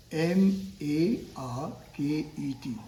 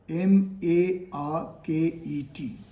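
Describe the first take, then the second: No difference in how they are said.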